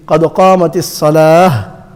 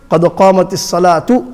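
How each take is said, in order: First: الصلاة closing on a breathed h, no t; sunnat ha ending. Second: الصلاة voiced through to "salaatu"; harakat on ta. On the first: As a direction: stop on الصلاة as "salaah". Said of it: "sunnat way is". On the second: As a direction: sound the ta with a u ending on الصلاة. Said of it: "It's not the masnoon way". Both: Shown as a demonstration.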